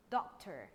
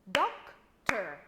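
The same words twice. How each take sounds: First: Said in the usual way. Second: "Doctor" in two loud, separate beats; clapped-out syllables. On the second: Shown as a demonstration. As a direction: clap out "Doctor" loudly, one syllable at a time. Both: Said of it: "Let's clap the word together".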